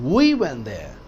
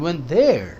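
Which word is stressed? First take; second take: We; there. First: The stress is on the word we. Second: The stress is on the word there. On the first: We went ourselves, nobody else. "हम वहां गए, कोई और नहीं, हम खुद।" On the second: We went to that place, nowhere else. "कहीं और नहीं, वहीं गए"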